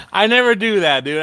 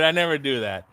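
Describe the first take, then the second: First: Higher and louder, "never" pushed hard; emphatic denial. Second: Said in the usual way. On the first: Real, not acted. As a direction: blurt out "I never do that" loudly.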